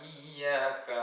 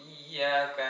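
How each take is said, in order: The two takes are said the same way.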